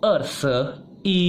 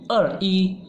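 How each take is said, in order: First: The middle syllable shi is clearly said. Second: The middle syllable shi is left out. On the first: The speaker calls it right. "Yang betul itu er, se, ada se-nya" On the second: The speaker calls it wrong. "Sebenarnya bisa, tapi uh, bukan yang betul ya"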